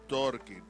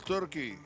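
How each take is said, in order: First: The first vowel sounds like 'or' in 'torque'. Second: The first vowel sounds like 'ur' in 'turkey'. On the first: The speaker calls it right. "It's Torky, T O R K Y" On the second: The speaker calls it wrong. "Or maybe we have the pronunciation wrong"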